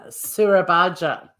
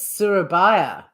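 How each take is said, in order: First: The middle consonant sounds like English J. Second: The middle consonant sounds like English Y. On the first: The speaker calls it wrong. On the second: The speaker calls it right.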